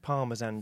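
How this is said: It is said with a British pronunciation.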